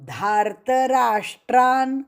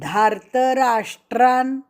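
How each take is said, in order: Both takes have the same delivery.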